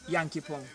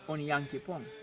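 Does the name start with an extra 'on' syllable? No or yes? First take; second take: no; yes. First: The name starts directly with the 'nyan' syllable. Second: The name starts with an extra 'on' syllable. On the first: "if we say Yankee Pong" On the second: "This is the proper pronunciation"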